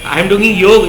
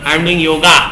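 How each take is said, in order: First: The last word ends on the consonant 'g'. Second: The last word ends with an added 'a' vowel. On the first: It keeps the original Indian form of the word. The speaker calls it right. "इतना तो बोलो" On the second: It copies the English way of saying it. The speaker calls it wrong. "अपन भी अंग्रेज की औलाद बने जा रहे हैं"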